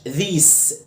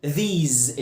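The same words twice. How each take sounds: First: These ending in a sharp "sss"; wrong these with S hissed; mistaken hissed S. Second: These said "theeez", low and falling; correct Z ending. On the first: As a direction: end these voiceless, like "theess". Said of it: "ما اسمهاش". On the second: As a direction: buzz the final S of these. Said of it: "ال S جاية بين حرفين متحركين". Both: Shown as a demonstration.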